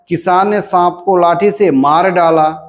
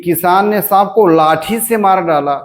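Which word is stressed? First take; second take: मार डाला; लाठी. First: The stress falls on the words मार डाला. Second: The stress falls on the word लाठी. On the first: "मार डालने पर बलाघात है" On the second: "लाठी से बलाघात हुआ"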